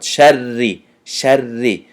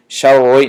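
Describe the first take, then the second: First: شری with a light, fronted "sharri"; thin ra. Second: شری darkened, like "showroy"; wrong thick ra. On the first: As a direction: keep the doubled ra of شری thin. («شری» бо рои тунук) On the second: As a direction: say شری wrongly with a heavy, rounded ra. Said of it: "شری نمیگیم". («شری» бо рои ғафси нодуруст) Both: Shown as a demonstration.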